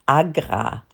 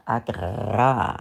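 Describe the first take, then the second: First: Said in the usual way. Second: "agra" with a long, rolled R, low; stressed R. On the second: Shown as a demonstration. Presenter relishing the abbreviation as a fine name, R drawn out. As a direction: lean hard on the R in "agra", drawing it out. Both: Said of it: "die Betonung liegt auf dem R".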